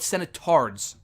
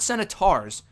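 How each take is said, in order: First: The word ends with a 'tards' sound instead. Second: The word ends with a plain 'tors' sound. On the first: The speaker calls it wrong. "which they mispronounce as senatards" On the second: The speaker calls it right. "Not senators"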